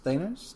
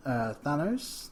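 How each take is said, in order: First: Thanos said THAY-nos, long a as in "say". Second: Thanos said THAN-os, flat a as in "than"; Thanos with a short a. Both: Shown as a demonstration. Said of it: "depends on how you wanna pronounce it".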